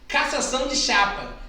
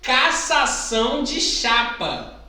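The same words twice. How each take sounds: First: It is said quickly. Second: It is said at a normal speaking pace.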